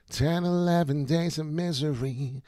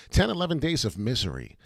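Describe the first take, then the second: First: Slow, higher, put-on gloomy delivery; theatrical slow lament; dramatic drawn-out voice. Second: Said in the usual way. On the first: Shown as a demonstration. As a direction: stretch it out like a doom narrator. Repeating phrase, second take dramatized.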